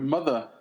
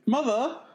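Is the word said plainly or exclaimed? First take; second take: plainly; exclaimed. First: The word is said plainly, without exclamation. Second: The word is said as an exclamation.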